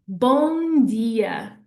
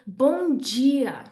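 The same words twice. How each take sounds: First: It is said with a plain D sound. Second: It is said with a J sound. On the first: This is how it is said in Portugal. "So in Portugal, we say bom dia" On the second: This is how it is said in Brazil. "that D becomes a J sound"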